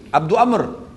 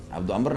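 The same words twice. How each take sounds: First: Raised, falling call of a name. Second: Said in the usual way. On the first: Retold or imitated. Umayyah calls to Abdurrahman as he passes, calling out. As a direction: call out to someone passing by. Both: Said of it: "dia panggil".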